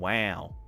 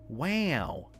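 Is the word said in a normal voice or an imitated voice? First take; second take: normal; imitated. First: It is said in the speaker's ordinary voice. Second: It is said in an imitated celebrity voice.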